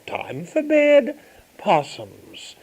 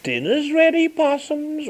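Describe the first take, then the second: First: Put-on mother calls her children to bed, rising then falling; mother calling kids. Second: High sing-song call to dinner; mother sings out dinner's ready to her kids. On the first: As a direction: draw it out like a mum sending kids to bed. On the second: Retold or imitated. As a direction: lilt it up high like a mum calling the children. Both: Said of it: "She'd say".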